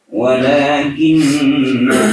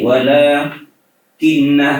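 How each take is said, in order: First: The word flows without any pause. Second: There is a pause inside the word.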